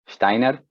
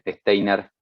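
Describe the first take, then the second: First: The name is said with German sounds. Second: The name is said with Spanish sounds. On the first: The speaker calls it right. "porque era un alemán y se pronuncia más o menos así" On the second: The speaker calls it wrong. "les voy a permitir decir Steiner y matar el apellido"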